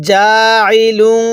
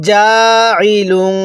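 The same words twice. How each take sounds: Both takes have the same delivery.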